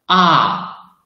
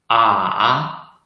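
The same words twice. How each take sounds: First: The syllable is said in the fourth tone. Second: The syllable is said in the third tone. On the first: "the fourth tongue" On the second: "the third tongue"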